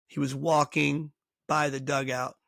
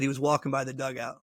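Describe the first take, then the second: First: "walking by the dugout" drawn out slowly; slow emphatic repeat. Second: Said in the usual way. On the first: Retold or imitated. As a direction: spell out "walking by the dugout" slowly to make the point. Repeats it slowly to make point.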